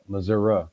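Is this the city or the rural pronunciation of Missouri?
rural. It is said the way rural people say it. The speaker is from a rural area. "people more rural, going to the southwest, uh, will say uh, Missouri"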